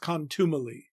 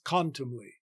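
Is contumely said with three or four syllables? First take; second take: four; three. First: Four syllables, stress on the second syllable. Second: Three syllables, stress on the first syllable. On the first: The speaker calls it wrong. "four syllables with the stress on the second syllable as in modern speech" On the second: The speaker calls it right. "three syllables with the main stress on the first syllable"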